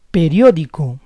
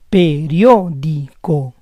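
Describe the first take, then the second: First: Said in the usual way. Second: Periódico split as pe-RIÓ-di-co; syllable by syllable. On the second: Shown as a demonstration. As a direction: say Periódico in parts, stressing RIÓ. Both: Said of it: "try to understand the rules".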